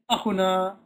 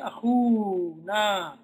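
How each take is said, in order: First: The word has no long 'oo' vowel. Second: The word has a long 'oo' vowel. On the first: The speaker calls it wrong. "You don't say akhuna" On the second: The speaker calls it right. "you say akhuna, that waw will appear"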